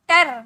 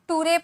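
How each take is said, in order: First: It is said as 'tar'. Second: It is said as 'too-ray'. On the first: "ना टर पढ़ेंगे" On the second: "ना टूरे पढ़ेंगे"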